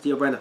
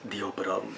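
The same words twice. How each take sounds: First: The name is said in a plain, casual way. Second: The name is said in a dramatic, telenovela-like way. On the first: The speaker calls it wrong. "you can't just say" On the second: The speaker calls it right. "that's just how you say it"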